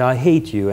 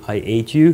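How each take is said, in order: First: The h sound before 'ate' is pronounced. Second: The h sound before 'ate' is dropped. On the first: The speaker calls it right. "So I worked on that, and I got to the point that I could say" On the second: The speaker calls it wrong. "I still couldn't pronounce the H properly. So I would say"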